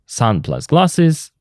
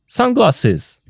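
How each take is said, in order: First: Slow, Sun plus glasses each word separate; nouns said apart. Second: Sunglasses with sun stressed, higher and falling; stress on first noun. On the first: Teacher shows learners the two nouns, said slowly apart. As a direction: lay out the two parts slowly. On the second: Teacher shows learners the compound, stress on sun. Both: Shown as a demonstration. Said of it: "For example".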